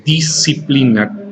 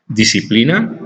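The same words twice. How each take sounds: First: "disciplina" slowly, S and C separated; sounded out for spelling. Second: Said in the usual way. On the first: Shown as a demonstration. Teacher showing students the S and C, "disciplina" sounded out. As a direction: draw out "disciplina" syllable by syllable. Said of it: "está escrita con S y con C". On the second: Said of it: "disciplina está escrita con S y con C".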